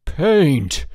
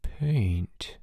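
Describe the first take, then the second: First: "Paint!" shouted high and loud; "Paint!" burst out in outrage; louder. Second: Whispered, slow; softly. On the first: George discovering the trick, "Paint!" shouted loud. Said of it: "then louder". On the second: George realizing the blood is paint, softly whispered. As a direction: breathe the word in disbelief. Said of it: "said George softly". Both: A narrator's reading.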